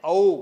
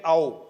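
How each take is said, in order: First: औ opened clearly as अउ; louder, deliberate औ gliding from अ to उ; correct way. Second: औ said almost like ओ; the sloppy औ, nearly ओ; common mistake. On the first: Teacher showing the class the clear औ, a bit louder. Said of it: "इसका उच्चारण है औ". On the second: Teacher imitating how students say it, औ blurred into ओ. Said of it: "ऐसा नहीं है". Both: Shown as a demonstration.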